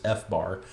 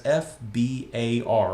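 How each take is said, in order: First: BAR in F bar said as one syllable; F bar, not spelling out the BAR; said as a word. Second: F B A R said letter by letter; each letter of F B A R separate; spelled out. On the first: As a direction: say F bar as the letter F plus the word bar. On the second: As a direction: spell out F B A R slowly, one letter at a time. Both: Shown as a demonstration. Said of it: "pronounce that as F bar".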